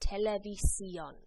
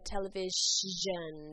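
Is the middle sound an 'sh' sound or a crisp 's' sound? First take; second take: s; sh. First: The middle is said with a crisp 's' sound. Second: The middle is said with an 'sh' sound. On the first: The speaker calls it right. "pronouncing the S, the I, the O, all separately, crisply" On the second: The speaker calls it wrong. "That sh sound does not exist in Spanish"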